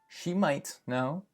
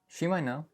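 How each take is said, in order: First: The T in might is pronounced. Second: The T in might is dropped. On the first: The speaker calls it wrong. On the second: The speaker calls it right.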